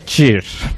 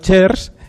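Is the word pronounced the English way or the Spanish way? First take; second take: English; Spanish. First: It is pronounced with an English accent. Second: It is pronounced with a Spanish accent. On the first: "En inglés" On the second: "En español"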